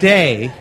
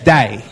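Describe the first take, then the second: First: The vowel is a plain, standard 'ay' sound. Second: The vowel is a broad Australian 'die' sound. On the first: The speaker calls it wrong. "It's not day" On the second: The speaker calls it right. "It's day"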